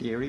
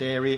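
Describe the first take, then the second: First: The word begins with the sound of 'ear'. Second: The word begins with the sound of 'air'. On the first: This is how the interviewer says it. "I pronounce it eerie" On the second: This is how the book's author says it. "You pronounce it airy"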